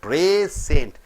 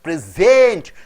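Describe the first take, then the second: First: The stress is on the first syllable. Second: The stress is on the second syllable. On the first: A gift. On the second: To give a gift.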